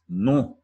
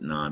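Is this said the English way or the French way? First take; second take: French; English. First: The word is said with a French nasal vowel and no clear final n. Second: The word is said with an English vowel and a clear final n. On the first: This is how the word for no is said in French. "in French, ... it's pronounced non" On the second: This is how the prefix is said in English. "we pronounce it non"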